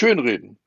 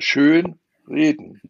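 First: The stress is on the first word, schön. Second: The stress is on the second word, reden. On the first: Glossing over or making something sound better than it is. "Ich meine nicht schön reden" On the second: Speaking well and beautifully. "sondern schön reden. Die Betonung macht"

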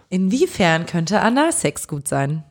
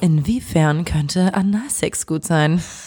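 First: It is read in an ordinary speaking voice. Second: It is read in a put-on radio host voice.

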